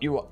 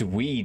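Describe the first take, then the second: First: It is spelled out as two separate letters. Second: It is said as one short word, "wee". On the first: The speaker calls it wrong. "Not U I" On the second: The speaker calls it right. "That is the new way to pronounce those"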